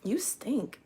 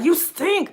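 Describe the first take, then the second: First: It is said in a mild, gentle tone. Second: It is said in a harsh, disgusted tone. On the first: The point is made tactfully. The speaker calls it right. "you can say" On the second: The point is made rudely. The speaker calls it wrong. "but it doesn't like"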